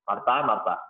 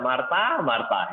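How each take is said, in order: First: It is said in a flat, even tone. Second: It is said with lively, varied intonation. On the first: The speaker calls it wrong. "Nggak mungkin cuman" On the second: The speaker calls it right. "dengan intonasi misalnya"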